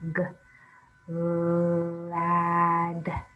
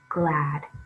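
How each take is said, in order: First: The word is broken into separate sounds. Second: The word is said smoothly as one unit. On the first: "Sound it out" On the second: "Read it fast"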